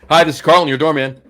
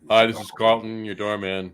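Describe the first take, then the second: First: It is said in a chipper, upbeat tone. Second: It is said in a flat, low-key tone.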